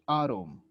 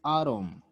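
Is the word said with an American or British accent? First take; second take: American; American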